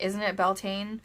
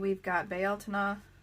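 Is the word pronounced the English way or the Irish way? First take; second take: English; Irish. First: The word has an anglicized English pronunciation. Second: The word has its Irish pronunciation. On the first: It is the anglicized form of the word. "not anglicize the, the word" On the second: It keeps the original Irish word. "I'm using the Irish pronunciation"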